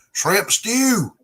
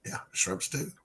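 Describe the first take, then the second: First: "Shrimp stew!" in an exaggerated Arkansas Southern drawl, higher and louder; imitating the Arkansas Southern way of saying "Shrimp stew!"; mock Arkansas Southern accent, spoken loudly with a laugh. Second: Said in the usual way. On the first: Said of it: "unusual Arkansas Southern accent". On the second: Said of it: "you gotta say shrimp stew".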